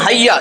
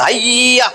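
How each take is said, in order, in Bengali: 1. স্বরধ্বনিটি ছোট রাখা হয়, কোনো টান দেওয়া হয় না। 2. স্বরধ্বনিটি লম্বা করে টানা হয়। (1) "এখানে কোনো টান নাই" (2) "এটা তো হইতেছে না"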